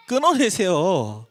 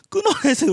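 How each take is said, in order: First: Said in the usual way. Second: "끊어내세요" jumps much higher, insistent; emphatic repeat. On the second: Retold or imitated. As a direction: press the repeat "끊어내세요" high and urgent. ("끊어내세요"를 훨씬 높게 강조해서) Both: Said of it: "라고 우린 얘기하죠".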